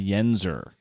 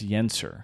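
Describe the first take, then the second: First: The middle consonant is a z sound. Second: The middle consonant is an s sound. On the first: The speaker calls it wrong. "some people say Yenser. ... some people put the Z in there" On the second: The speaker calls it right. "But it's Yenser"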